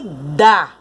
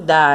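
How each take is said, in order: First: The word is strong, said with more force. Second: The word is weak, merging with the previous word. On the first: "Olha como esse dá é pronunciado com mais força" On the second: "esse da quase que se junta com a palavra mãe"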